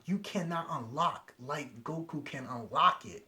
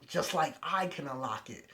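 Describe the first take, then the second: First: Said in the usual way. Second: Boastful emphasis on "I"; stress on I. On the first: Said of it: "And he's like". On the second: Retold or imitated. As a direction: punch "I" as the boast. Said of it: "he's just like".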